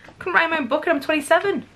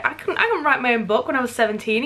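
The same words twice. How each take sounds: First: Higher, fast, exasperated repeat; incredulous. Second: Said in the usual way. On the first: Real, not acted. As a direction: rush it out, still amazed. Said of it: "Are you kidding me?".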